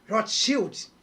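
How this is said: The name is said with Portuguese sounds.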